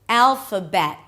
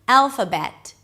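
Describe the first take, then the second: First: The final T is held, not released. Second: The final T is clearly released. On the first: "a T that is usually a held T. So you don't really release it" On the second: "if you do choose to pronounce the T at the end"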